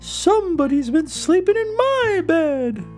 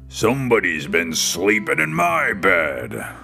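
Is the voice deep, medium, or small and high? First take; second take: medium; deep. First: It is said in a medium, grumbling voice. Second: It is said in a big, booming voice.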